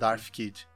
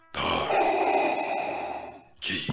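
First: It is said in a plain voice. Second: It is said in a Darth Vader voice.

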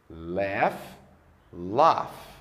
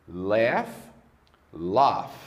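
No difference in how they are said.

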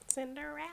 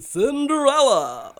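First: It is said in a normal voice. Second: It imitates the Magic Mirror from Shrek.

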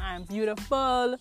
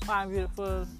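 First: It is said with feeling and energy. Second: It is said flatly, without any feeling.

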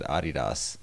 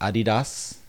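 First: It is said with the European pronunciation. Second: It is said with the usual American pronunciation. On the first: The speaker calls it wrong. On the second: The speaker calls it right.

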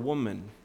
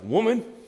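First: It is said in a warm, respectful tone. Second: It is said in a belittling, harsh tone.

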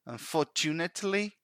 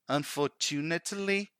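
No difference in how they are said.

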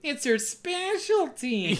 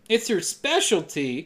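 First: It is said in a mocking voice. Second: It is said in a plain voice.

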